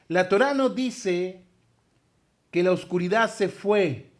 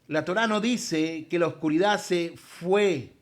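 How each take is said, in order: First: The sentence is spoken more slowly. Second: The sentence is spoken at a normal pace.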